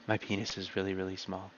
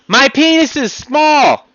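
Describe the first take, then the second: First: Much softer, lower, laughing murmur; quiet lie. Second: High, loud, slow shout; honest yell. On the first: Playing the liar's quiet admission, hushed and giggling. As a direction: mumble it away like a liar. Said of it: "See, I just lied there". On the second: Showing that honest people can yell, shouting. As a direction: belt out the truth proudly. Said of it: "I can yell there". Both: Shown as a demonstration.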